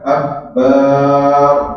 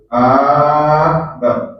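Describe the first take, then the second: First: The last syllable is drawn out long. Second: The first syllable is drawn out long. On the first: It changes the word's meaning. "bar dipanjang, dibaca panjang" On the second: It turns the phrase into a question. "a dibaca panjang"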